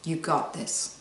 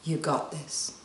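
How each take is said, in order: First: Soft, quiet self-encouragement. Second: Softer, quiet affirmation. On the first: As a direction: murmur it gently to yourself. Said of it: "say to yourself out loud". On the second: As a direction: breathe it out gently. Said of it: "So say it with me". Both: Shown as a demonstration.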